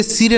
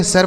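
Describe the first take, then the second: First: "सिर" said as sir with a short i, the wrong way to read S I R. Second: "सर" said as sar with a short a, the right reading of S I R; correct reading sar. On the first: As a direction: read "सिर" as sir with an i sound, as a mistake to avoid. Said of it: "इसे सिर नहीं पढ़ेंगे". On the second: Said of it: "सर पढ़ेंगे". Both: Shown as a demonstration.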